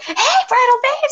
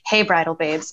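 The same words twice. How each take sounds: First: It is said loudly and excitedly, almost yelling. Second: It is said in a calm, normal tone.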